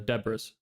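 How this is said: The name has an easier, English-style pronunciation. This is an easier form for English speakers. "usually I just have people pronounce it as"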